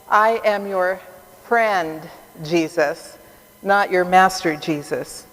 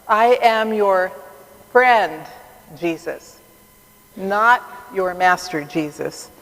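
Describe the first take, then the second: First: It is said in a plain, neutral tone. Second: It is said in a warm, loving tone.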